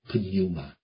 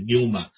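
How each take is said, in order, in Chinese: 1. 开头要读一个短的 p 音。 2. 开头的 p 音不读。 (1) "它是一个pneuma 这样的啊" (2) "很多现代的希腊文发音就是pneuma"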